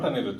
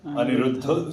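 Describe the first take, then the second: First: The name ends on a consonant, final vowel dropped. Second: The name ends on a vowel, final vowel kept. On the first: The final vowel is deleted as in Hindi. The speaker calls it wrong. "his name is not Anirudh Joshi" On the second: The final vowel is kept as in Marathi. The speaker calls it right. "his name is Aniruddha Joshi"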